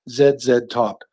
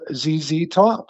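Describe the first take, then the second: First: The letters are said the Canadian way. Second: The letters are said the American way.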